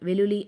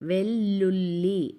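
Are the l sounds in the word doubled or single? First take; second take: single; doubled. First: The l sounds are short and single. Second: The l sounds are held long and doubled. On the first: The speaker calls it wrong. "వెలులి అని అట్లే" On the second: The speaker calls it right. "వత్తి పట్టి చదువుతున్నా"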